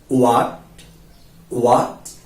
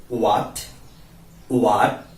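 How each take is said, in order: No difference in how they are said.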